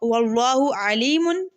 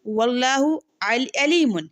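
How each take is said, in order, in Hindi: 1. Alimun की शुरुआत हलक़ की आवाज़ वाले ain से होती है। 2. Alimun की शुरुआत हमज़ा (glottal stop) से होती है। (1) "अलीमुन खूब जानने वाला" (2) "आइन की जगह हमजा पढ़ ले तो ... अलीमुन दर्दनाक"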